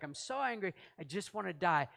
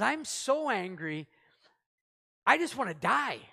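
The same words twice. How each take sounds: First: Said in the usual way. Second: A mock tantrum from Jonah; sulky anger. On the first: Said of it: "off your rocker at that point to be like". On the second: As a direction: drag out so, then burst out. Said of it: "And he says".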